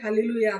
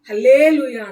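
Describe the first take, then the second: First: The word is said in a plain, ordinary way. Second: The word is said with altered, exaggerated modulation. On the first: "హల్లెలూయా అనకుండా" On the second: "modulation కూడా మారుస్తూ"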